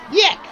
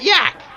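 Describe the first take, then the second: First: "Yek." with an e as in neck; right name. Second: "Yak" with an open a as in cat; wrong name. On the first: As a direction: say "Yek." rhyming with deck. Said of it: "Y E K, Yek". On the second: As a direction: say "Yak" rhyming with back. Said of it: "It's Yek, not Yak". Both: Shown as a demonstration.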